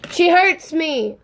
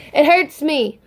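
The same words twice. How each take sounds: First: "hurts" stretched slow and pitched up; drawn-out emphasis. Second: Said in the usual way. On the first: Real, not acted. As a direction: linger on "hurts" in mock agony. Fan gushing over her bias.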